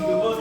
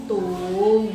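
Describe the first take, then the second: First: It is said with the first tone. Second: It is said with the third tone. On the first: "tung satu" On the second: "tung tiga"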